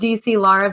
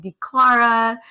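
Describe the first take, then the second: First: The name is said as D, C, Lara. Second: The name is said as D, Clara. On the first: This is the name's proper form. The speaker calls it right. "even though it's D C Lara" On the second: This is how others commonly say the name. The speaker calls it wrong. "people call me D Clara"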